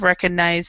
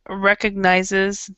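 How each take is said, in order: First: The final 'es' syllable is swallowed. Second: The final 'es' syllable is clearly pronounced. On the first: The speaker calls it wrong. "it's really easy to swallow this E S" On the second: The speaker calls it right. "be sure that you're pronouncing the whole word"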